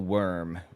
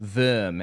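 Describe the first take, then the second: First: The name is pronounced the English way. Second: The name is pronounced the German way.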